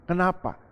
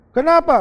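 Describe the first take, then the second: First: Asked softly, almost to himself; a low, soft why; quiet question. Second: Louder and higher, pressing the question; loud demanding why. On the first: Preacher asks the congregation softly first, quiet. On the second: Preacher repeats the question to the congregation, loud. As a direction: throw the why out at the crowd. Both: Acted.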